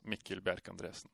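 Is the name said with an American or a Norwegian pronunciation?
Norwegian. The name is said with a Norwegian pronunciation. "but the Norwegian pronunciation is"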